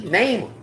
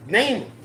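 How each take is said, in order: Both takes have the same delivery.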